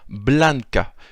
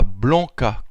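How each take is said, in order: First: The vowel is plain and the n is sounded. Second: The vowel is nasal and the n is silent. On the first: The speaker calls it right. "mais bien Blanca, puisque en espéranto, toutes les lettres sont prononcées" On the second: The speaker calls it wrong. "pas Blanca comme on le dirait en français"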